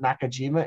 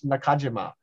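First: The name is said with English-style pronunciation. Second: The name is said with Japanese-style pronunciation. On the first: The speaker calls it wrong. "it's not Nakajima" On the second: The speaker calls it right. "That's the correct pronunciation if you really want to go to Japan"

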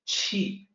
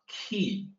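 First: The word begins with a ch sound. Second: The word begins with a k sound. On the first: The speaker calls it right. "The q is always ch. So that's qi" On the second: The speaker calls it wrong. "it's not key. Q is, doesn't sound like K"

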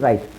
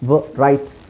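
First: The word starts directly with the r. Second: A w sound is said before the r. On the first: The speaker calls it right. "ಬರೀ ರೈಟ್, ವ silent ಆಗಿರುತ್ತೆ" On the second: The speaker calls it wrong. "ವ ರೈಟ್ ಅಂತ ಹೇಳಲ್ಲ"

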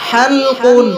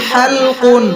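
No difference in how they are said.

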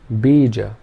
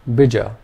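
First: Only the first vowel is long. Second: Both vowels are short. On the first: "if the first vowel sound was long" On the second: "Both the vowel sounds are short"

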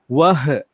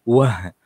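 First: The final h is bounced with an echo. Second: The final h is soft, with no bounce. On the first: The speaker calls it wrong. "ada orang yang terbaca" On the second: The speaker calls it right. "bacaan ha yang biasa"

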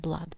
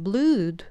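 First: The vowel sounds like a short uh. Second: The vowel sounds like a long oo. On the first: The speaker calls it right. "Это будет похожее на а" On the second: The speaker calls it wrong. "не blood"

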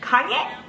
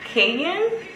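First: It is said like the name Kanye. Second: It is said as kay-EN, like cayenne. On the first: The speaker calls it wrong. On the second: The speaker calls it right.

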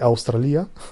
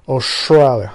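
First: It is said the Albanian way. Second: It is said the American way.

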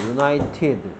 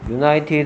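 First: The final 'ed' sound is clearly pronounced. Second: The final 'ed' sound is left off. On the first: The speaker calls it right. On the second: The speaker calls it wrong.

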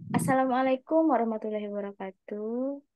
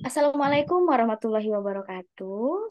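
First: The voice sounds neutral, without a smile. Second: The voice sounds smiling throughout the greeting. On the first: The speaker calls it wrong. "Itu bukan smiling voice" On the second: The speaker calls it right. "untuk smiling voice yang tepat itu seperti ini"

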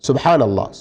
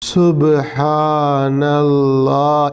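First: The word is said clearly at moderate length. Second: The word is drawn out very long. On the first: "కనీసం పలికే పలుకులు స్పష్టంగా ఉండాలి" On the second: "ఇంత దీర్ఘంగా కాకపోయినా"

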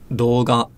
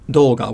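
First: The pitch stays flat with no drop. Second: The pitch is high at the start, then drops. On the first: The speaker calls it right. "don't have an accent, so they're also heibang" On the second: The speaker calls it wrong. "with the accent, excuse me, at the beginning of the word"

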